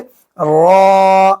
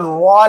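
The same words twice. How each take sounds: First: The vowel is unrounded with no w-like sound. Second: The vowel has rounded lips and a w-like sound. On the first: The speaker calls it right. "ऐसे कहेंगे रॉ" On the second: The speaker calls it wrong. "ऐसे रॉ नहीं कहेंगे, वाव की आवाज ना आने पाए"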